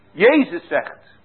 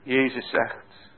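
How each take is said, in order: First: "Jezus" said louder, slow and falling; stress on Jezus. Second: Said in the usual way. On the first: Shown as a demonstration. Preacher repeats to the congregation, stressing Jezus. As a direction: press "Jezus zegt." out with force, slowly.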